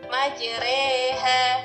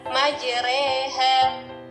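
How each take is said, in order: No difference in how they are said.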